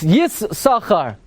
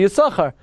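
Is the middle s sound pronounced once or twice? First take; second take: twice; once. First: The middle s sound is said twice. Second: The middle s sound is said only once. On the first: Both letters sin are pronounced. "if you want to pronounce both sins, it's Yis-Sachar" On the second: The second letter sin is left silent. "you should always say Yisachar, like Ben Ashar"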